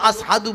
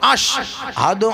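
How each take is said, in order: First: It is said with an 's' sound. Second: It is said with a 'sh' sound. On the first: The speaker calls it wrong. "সিন উচ্চ আস আস বলতেন" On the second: The speaker calls it right. "এই শিনটাই হবে"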